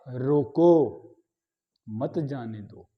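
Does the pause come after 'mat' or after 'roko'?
after roko. There is a pause after 'roko'. Stop the person; don't let them go. "अगर मैं इसी अल्प विराम को यहां लगा दूं"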